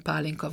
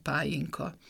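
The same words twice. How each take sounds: First: "pálinka" with a clear l in the middle; standard L sound. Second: "pályinka" with a y-glide for the l; j in place of l in "pályinka". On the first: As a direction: say "pálinka" with l, not j. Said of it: "a köznyelvi ellek helyén". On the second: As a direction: dialect "pályinka", said pá-jin-ka. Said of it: "elő jég". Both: Shown as a demonstration.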